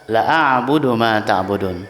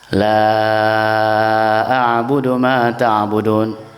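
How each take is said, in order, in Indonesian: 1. Vokal pertama dibaca pendek. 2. Vokal pertama dibaca panjang.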